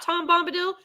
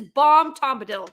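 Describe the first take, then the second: First: Said in the usual way. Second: "Bomb Tombadil", with the T and B of the name swapped; swapped initial sounds. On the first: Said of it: "This is Bomb Tombadil". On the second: Shown as a demonstration. Viewer mockingly renaming a character, "Bomb Tombadil" with swapped first sounds. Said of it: "not Tom Bombadil".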